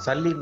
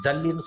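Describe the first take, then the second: First: The word begins with an s sound. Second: The word begins with a j sound. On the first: It names the old coin. The speaker calls it right. "சல்லின்னு தான் சொல்லணும்" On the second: It names crushed stones. The speaker calls it wrong. "ஜல்லின்னு சொல்லக்கூடாது"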